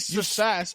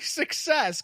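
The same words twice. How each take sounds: First: The k sound in the middle is dropped. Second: The k sound in the middle is pronounced. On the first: The speaker calls it wrong. "I don't say success" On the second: The speaker calls it right. "that's how you say it"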